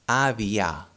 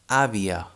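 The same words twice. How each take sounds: First: The final vowel is a full open a. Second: The final vowel is a weak, reduced sound. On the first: The speaker calls it wrong. "If the sound wouldn't change, would be avia. It would sound like this, but we do not say like this" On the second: The speaker calls it right. "We say avia"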